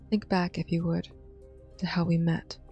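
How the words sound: It is said in the reader's natural voice.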